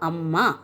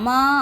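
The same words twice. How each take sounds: First: The final vowel is short and plain. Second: The final vowel is drawn out long. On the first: It is the written form. "எழுதுகிற நேரம் என்ன எழுதுவோம்? அம்மா அப்படி தான் எழுதுவோம்" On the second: Someone is being called in everyday speech. "நம்ம பேச்சு வழக்கில் அம்மா இங்கே வாங்க அப்படின்னு சொல்லுவோம்"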